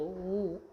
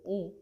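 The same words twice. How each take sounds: First: The vowel is said long and drawn out. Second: The vowel is said short and clipped. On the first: "दीर्घ उचा उच्चार लांब होतो" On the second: "ऱ्हस्व उचा उच्चार जागच्या जागेवरच होतो"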